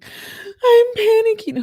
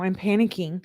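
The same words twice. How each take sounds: First: Very high, drawn-out squeal; tiny high-pitched wail of pretend panic; mock panic. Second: Said in the usual way. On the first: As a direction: squeal it out slowly in hammed-up panic.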